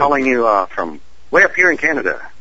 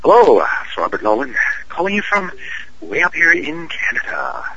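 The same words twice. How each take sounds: First: Canadian voice. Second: Playful Canadian accent, pitched higher on the repeat; hammed-up Canadian voice. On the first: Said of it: "That's my Canadian voice". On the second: Actor redoes his Canadian voice for the podcast host, higher and hammed up. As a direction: lay the Canadian accent on thicker for the encore. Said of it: "do it one more time". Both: Shown as a demonstration.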